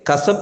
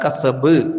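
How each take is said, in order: First: The final b has no clear bounce. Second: The final b is released with a clear bounce. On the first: The speaker calls it wrong. "കസബ് എന്നല്ല" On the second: The speaker calls it right. "ഇദ്ഹാർ ചെയ്യണം, വ്യക്തമാക്കി ഉച്ചരിക്കണം"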